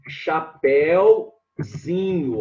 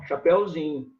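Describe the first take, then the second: First: "chapéuzinho" drawn out slowly in separated parts; syllable by syllable. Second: Said in the usual way. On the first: Shown as a demonstration. Teacher forming the diminutive for students, slow syllable by syllable. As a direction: stretch each syllable of "chapéuzinho". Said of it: "vai ficar".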